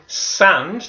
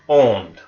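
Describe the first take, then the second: First: The vowel is an open, non-nasal 'ah' sound. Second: The vowel is a nasal 'on' sound. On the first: The speaker calls it wrong. "instead of saying sand, that ah sound" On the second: The speaker calls it right. "we would say on"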